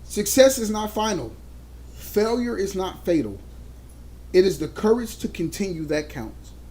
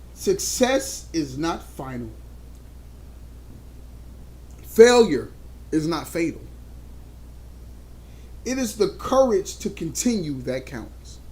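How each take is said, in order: First: It is said in a plain, calmer way. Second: It is said in an overly dramatic way.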